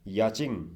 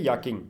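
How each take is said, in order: First: The middle consonant is a 'ch' sound. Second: The middle consonant is a 'k' sound. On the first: "याचिंग भी कह सकते हैं" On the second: "normally इसे याकिंग ही कहा जाता है"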